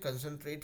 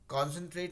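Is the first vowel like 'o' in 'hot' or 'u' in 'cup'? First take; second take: cup; hot. First: The first vowel sounds like 'u' in 'cup'. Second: The first vowel sounds like 'o' in 'hot'. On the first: The speaker calls it right. "होगा" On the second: The speaker calls it wrong. "नहीं होके"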